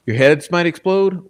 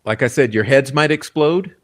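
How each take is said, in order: First: "explode" pitched high and stressed; emphatic repeat. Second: Said in the usual way. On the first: Shown as a demonstration. Host warning viewers of shocking news, high emphatic repeat. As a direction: lean hard into "explode" for a dramatic warning.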